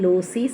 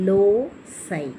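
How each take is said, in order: First: The word ends in an ee sound. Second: An s sound, then the word ends in eye. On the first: The speaker calls it wrong. "லோசி சொல்லக்கூடாது" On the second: The speaker calls it right. "இதனுடைய phonetic script இப்படி தான் இருக்குது"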